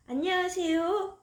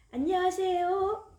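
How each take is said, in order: First: High rising hello; child greeting the apartment guard; cheerful greeting. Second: High sing-song hello; child greeting the mailman; cheerful greeting. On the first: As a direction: greet politely with a lift. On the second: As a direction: greet brightly with a rising tune. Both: Acted.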